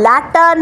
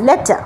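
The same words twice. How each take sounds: First: ল্যাটার with an open a vowel, marked wrong; wrong pronunciation. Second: লেটার with a clear e vowel and no r; correct pronunciation. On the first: Teacher shows the students' mistake, ল্যাটার with open a. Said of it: "ল্যাটার না". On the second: Teacher gives the class the right লেটার. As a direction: model লেটার as the right form. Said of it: "ঠিকটা হচ্ছে এইটা". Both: Shown as a demonstration.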